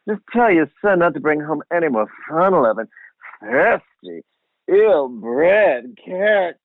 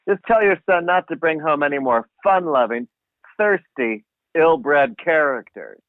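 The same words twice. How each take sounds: First: It is read in a drawling Southern accent. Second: It is read in a plain, unaccented voice.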